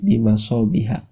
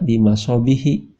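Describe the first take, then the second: First: The word ends with an 'a' vowel. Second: The word ends with an 'i' vowel. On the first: The speaker calls it right. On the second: The speaker calls it wrong. "tidak dibaca"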